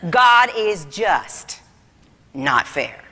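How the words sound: There is a pause after 'just'. God is just, but not fair. "But with the comma"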